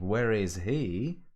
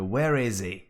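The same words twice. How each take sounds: First: The H at the start of 'he' is pronounced. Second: The H at the start of 'he' is dropped. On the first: The speaker calls it right. "Instead of where is he" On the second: The speaker calls it wrong. "they go"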